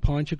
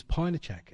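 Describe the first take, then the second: First: PINECHUK in two syllables, ending "chuk"; the garbled "Pinechuk"; mispronounced word. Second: PINECHAK in three syllables, "pine-uh-chak"; the full word "Pinechak", pine-uh-chak; corrected pronunciation. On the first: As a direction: say "Pinechuk" as "pine-chuk", no middle vowel. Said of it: "wasn't Pinechuk". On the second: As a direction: say "Pinechak" with a middle "uh" and a clear final "chak". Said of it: "it was Pinechak". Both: Shown as a demonstration.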